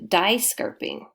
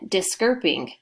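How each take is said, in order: First: The first vowel is long, like die. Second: The first vowel is short, like disc. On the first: "Last time it was die" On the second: "our first syllable is a closed syllable ... So that makes it a short vowel sound"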